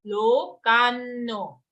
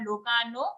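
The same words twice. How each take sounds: First: Lokanno with a long, held nn; double n. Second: Lokanno wrongly said with one short n, "lokano"; single n. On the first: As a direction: lean slowly on the doubled n in lokanno. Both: Shown as a demonstration. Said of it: "Again, double n here".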